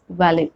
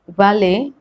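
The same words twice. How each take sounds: First: The T sound is pronounced. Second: The T sound is silent. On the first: "same way valet as valet" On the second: "we don't pronounce T"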